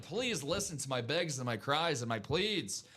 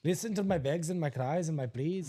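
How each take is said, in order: First: Slow pleading with an Irish lilt; Irish-sounding accent. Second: Lightly put-on Irish accent; mimicked Irish lilt. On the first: Acted. Host begging viewers to buy, slow Irish-sounding plea. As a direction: plead slowly, slightly Irish. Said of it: "Sounds like he was playing in Dublin". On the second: Co-host echoing host's plea, mimicked Irish lilt. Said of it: "Sounds like he was playing in Dublin this morning".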